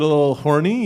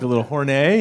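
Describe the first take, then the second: First: Said in the usual way. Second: "horny" ending in a French-style "ay"; mock French pronunciation. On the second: Shown as a demonstration. Comic passing off "horny" as French, ending it in "ay". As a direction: say "horny" as hor-NAY, faux French. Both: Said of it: "it's French".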